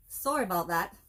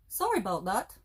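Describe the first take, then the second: First: Said in the usual way. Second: Lightly imitating a Canadian accent, rising at the end; a hint of a Canadian accent on a sorry; Canadian movie quote. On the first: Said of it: "It didn't make the shelf". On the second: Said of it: "That's their quote".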